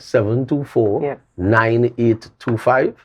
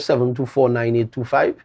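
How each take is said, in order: First: The number is said slowly and deliberately. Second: The number is said at normal quick speed.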